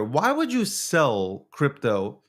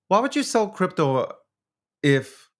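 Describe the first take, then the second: First: Drawn-out, baffled asking; slow it down, truly puzzled; slow puzzled question. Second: Pitched up in disbelief; higher exasperated question. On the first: Streamer slowly asks his chat why they sell, puzzled. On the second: Streamer asks his chat again, higher and exasperated. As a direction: throw it up high, exasperated. Baffled by crypto sellers. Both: Real, not acted.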